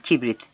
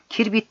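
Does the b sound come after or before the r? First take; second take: before; after. First: The b comes before the r sound. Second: The r comes before the b sound. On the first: The speaker calls it right. "kirbit değil kibrit" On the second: The speaker calls it wrong. "kirbit değil kibrit"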